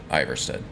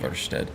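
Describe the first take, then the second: First: The name is said with a plain English pronunciation. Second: The name is said with a Nordic-style pronunciation. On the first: This is the familiar habitual way. "because that's what I've called it for the last twelve years" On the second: This follows the original language's rules. "if we're going off of Nordic pronunciation ... technically correctly"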